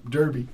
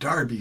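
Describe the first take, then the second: First: The first syllable sounds like 'dur'. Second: The first syllable sounds like 'dar'. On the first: The speaker calls it wrong. "they don't say Derby" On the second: The speaker calls it right. "they pronounce it Darby"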